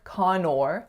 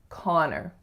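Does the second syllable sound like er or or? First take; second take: or; er. First: The second syllable sounds like or. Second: The second syllable sounds like er. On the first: The speaker calls it wrong. "it looks like Connor, but we don't say or" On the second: The speaker calls it right. "we say er"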